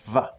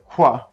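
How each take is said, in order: First: The K is followed by a V sound. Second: The K is followed by a W sound. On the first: This is how it sounds in German. "replace it with the German equivalent sound, which is va" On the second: This is how it sounds in English. "So in English we go qua"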